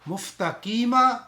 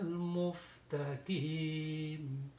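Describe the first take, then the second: First: The word ends with a short vowel. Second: The long vowel is prolonged and the word stops. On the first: The reading continues without stopping. "basically it is a mustaqima" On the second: The reader pauses at the end of the verse. "when we are making the stop here"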